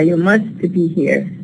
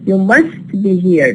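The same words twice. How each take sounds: First: The t in 'must' is clearly pronounced. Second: The t in 'must' is dropped. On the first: "produce ta as ta" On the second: "I'm going to reduce the all the sounds"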